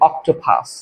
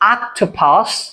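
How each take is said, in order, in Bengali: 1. প্রথম স্বরধ্বনিটি 'oh' এর মতো শোনায়। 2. প্রথম স্বরধ্বনিটি 'ah' এর মতো শোনায়। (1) "আমরা নরমাল এটাকে কি বলি অক্টোপাস না" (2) "মানে এটা সঠিক উচ্চারণ কি হবে কি আ আক আক"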